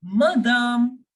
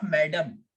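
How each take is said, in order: First: Madame as ma-DAHM, louder, long second syllable; French madame, weight on the drawn-out ending; French pronunciation. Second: Madam as MAD-um; English madam with a short, weak second syllable; English pronunciation. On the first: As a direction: say madame the French way, open final a. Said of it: "We will pronounce this word as madame". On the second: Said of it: "It is not madam". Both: Shown as a demonstration.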